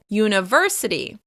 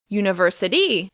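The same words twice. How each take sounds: First: The stress is on the third syllable. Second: The stress is on the last syllable. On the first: The speaker calls it right. "the stress will be on the third syllable" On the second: The speaker calls it wrong. "or to the end of the word"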